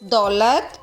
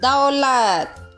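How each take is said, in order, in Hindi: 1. स्वर रोज़मर्रा के आम तरीके से बोला गया है। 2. स्वर सावधान और मानक तरीके से बोला गया है। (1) "आजकल बोलचाल की भाषा में इस तरह बोले जाते हैं" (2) "इसका सही उच्चारण कैसा है?"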